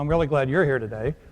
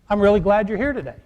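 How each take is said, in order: First: It is said flatly, without real feeling. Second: It is said warmly, with real feeling. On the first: The speaker does not really mean the welcome. The speaker calls it wrong. "I don't want you to do like" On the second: The speaker sincerely welcomes the listener. The speaker calls it right. "say it with some feeling"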